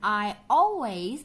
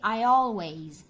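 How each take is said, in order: First: The words are joined without an added y sound. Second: A y sound links the two words together. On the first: The speaker calls it wrong. "Bukan I always" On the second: The speaker calls it right. "tapi I always"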